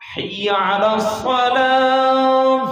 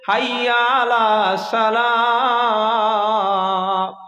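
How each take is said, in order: First: The s in salah is emphatic. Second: The s in salah is plain. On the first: The speaker calls it right. "আজানে যখন আছে এখানে কি সোয়াদ" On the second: The speaker calls it wrong. "গেল গোলমাল হয়ে"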